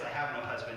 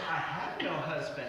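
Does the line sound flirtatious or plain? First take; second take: plain; flirtatious. First: It is said in a plain, matter-of-fact tone. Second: It is said in a flirtatious, suggestive tone. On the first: She is simply stating a fact. "it doesn't sound like that" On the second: She is flirting with him. "it sounds different"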